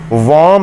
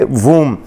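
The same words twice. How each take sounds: First: "वॉम" with a short o, the wrong way; wrong pronunciation. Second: "वूम" with a long oo, the b silent; correct pronunciation. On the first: Teacher warning students against reading womb as wom. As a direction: say "वॉम" as wom to show the mistake. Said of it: "वॉम नहीं". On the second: Teacher giving students the correct woom. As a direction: say "वूम" as woom, clean and final. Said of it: "बल्कि वूम". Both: Shown as a demonstration.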